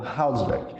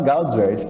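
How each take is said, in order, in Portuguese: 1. O nome começa com um som de H aspirado. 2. O nome começa com um som de G forte. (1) "fala como se fosse um H aspirado ou um R de rato nosso" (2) "mas eu falava Gaudswert"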